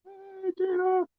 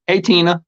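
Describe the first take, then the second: First: Very high, soft and slow, Tina drawn out; sing-song her name way up high and slow; playful high call. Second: Said in the usual way. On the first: Pretend. Calls to Tina again, changed voice.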